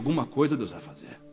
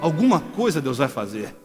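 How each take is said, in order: First: It is said in a plain, ordinary voice. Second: It is said in a solemn prophet's voice.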